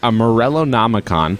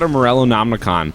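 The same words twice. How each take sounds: First: It is said slowly. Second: It is said fast.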